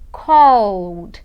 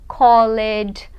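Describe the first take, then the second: First: The ending is just a final d sound. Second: The ending is pronounced as an extra syllable. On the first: The speaker calls it right. "eu vou falar cold" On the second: The speaker calls it wrong. "Muita gente fala assim, pronunciando o E"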